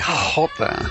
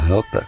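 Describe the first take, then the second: First: The first sound is harsh and forced. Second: The first sound is soft and light. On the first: "Para esforzarme tengo que decir jota" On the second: "con la jota más suave"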